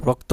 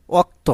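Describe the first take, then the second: First: Standard রক্ত with its opening r; standard form. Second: Regional অক্ত without the opening r; regional form. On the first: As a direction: say রক্ত as "rokto". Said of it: "আসলে কী হবে প্রমিত রূপ?". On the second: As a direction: say অক্ত as "okto". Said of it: "অনেকে কি বলে?". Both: Shown as a demonstration.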